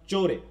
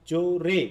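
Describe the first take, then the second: First: জোরে with its first syllable জো pressed harder; stress on first syllable. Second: জোরে split, with the final রে pushed harder; stress on second syllable. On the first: Teacher showing students what accent means, stress on জো in জোরে. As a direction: lean on জো in জোরে, let রে drop. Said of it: "কোন জায়গায় চাপ দিচ্ছি". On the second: Teacher asking students where the force falls, stress on রে in জোরে. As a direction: punch the রে at the end of জোরে. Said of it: "রে এর উপর আমি একটু জোরে উচ্চারণ করি". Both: Shown as a demonstration.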